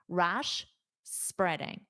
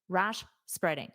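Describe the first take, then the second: First: There is a clear pause between the words. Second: There is only a very brief pause between words. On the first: "I'm going to fully pronounce rash and then I will say spreading" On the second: "my goal is to make that pause as quick as possible"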